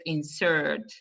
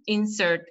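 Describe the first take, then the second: First: "insert" as the verb, in-SERT; last-syllable stress. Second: "insert" as the noun, IN-sert; first-syllable stress. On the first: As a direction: lean on the end of "insert". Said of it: "it's on the last syllable". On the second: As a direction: start "insert" higher, on IN. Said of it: "on the first syllable". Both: Shown as a demonstration.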